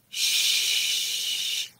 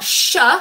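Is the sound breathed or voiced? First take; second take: breathed; voiced. First: The sound is just breathed out, unvoiced. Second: The sound is voiced with the vocal cords. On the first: The speaker calls it right. "It's sh" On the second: The speaker calls it wrong. "it's not sh"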